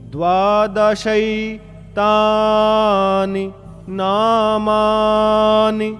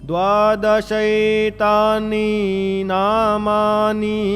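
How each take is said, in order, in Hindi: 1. आखिरी 'ni' स्वर छोटा रखा जाता है। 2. आखिरी 'ni' स्वर लंबा खींचा जाता है। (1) "तो छोटी कैसे बोलेंगे?" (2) "नी बड़ी हो गई ना"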